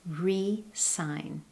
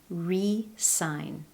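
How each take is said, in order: First: The middle consonant is a clear S. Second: The same.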